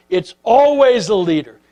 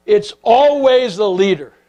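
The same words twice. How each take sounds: First: Said in the usual way. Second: "always" and "leader" leaned on, slowed; slow down and land "always"; slow emphasis. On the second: Shown as a demonstration. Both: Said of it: "repeated for emphasis".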